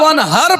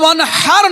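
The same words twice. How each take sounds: First: The h is a plain, light h sound. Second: The h is a throaty, harsh h sound. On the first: The speaker calls it wrong. "ওয়ানহার পড়বেন ছোট হা দিয়ে" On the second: The speaker calls it right. "ওয়ানহার বড় হা"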